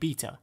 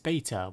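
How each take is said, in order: First: The word is said the English way. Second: The word is said in a non-English way. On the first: This is how the speaker says it. "that's how the English pronounce it" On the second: This is how the complaining viewers say it. "hey, it's beta"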